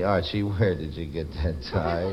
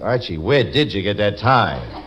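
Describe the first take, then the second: First: It sounds sad and mournful. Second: It sounds angry and accusing. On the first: "you say, sadly" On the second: "you say it angrily"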